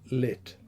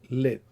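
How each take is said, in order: First: The final t ends with a small puff of air. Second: The final t is held with no release. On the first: "a final release of a voiceless alveolar stop" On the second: "no air released after the pronunciation of the t sound"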